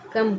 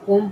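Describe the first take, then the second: First: The vowel is a short 'uh' sound. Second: The vowel is a rounded 'o' sound. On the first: The speaker calls it right. "क्या पढ़ेंगे इसे हम कम कहेंगे" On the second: The speaker calls it wrong. "यदि हम इसे कोम पढ़ेंगे ये तो ये गलत हो जाएगा"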